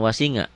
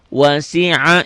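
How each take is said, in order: First: The middle consonant is an ng sound. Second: The middle consonant is a deep throat sound. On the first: The speaker calls it wrong. "jangan wasinga" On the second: The speaker calls it right. "ingat-ingat ya"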